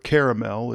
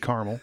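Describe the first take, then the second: First: Caramel is said with three syllables. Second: Caramel is said Midwest style, two syllables.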